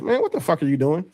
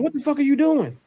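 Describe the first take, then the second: First: It is said in a condescending tone. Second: It is said in a neutral, non-condescending tone.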